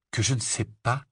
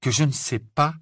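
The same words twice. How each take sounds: First: Questioning echo. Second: Higher, more pointed rising question; incredulous echo. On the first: Harry repeats Ron's accusation back, mildly incredulous. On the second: Harry challenges Ron's accusation, more openly incredulous. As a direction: echo it back in disbelief, pitch lifted. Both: Acted. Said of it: "répéta Harry".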